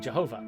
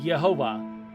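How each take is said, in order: First: The name begins with a J sound. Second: The name begins with a Y sound.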